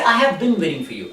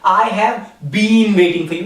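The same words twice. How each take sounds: First: 'Been' is said like 'bin'. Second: 'Been' is not said like 'bin'. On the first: The speaker calls it right. "We say" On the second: The speaker calls it wrong. "We never say been. Like"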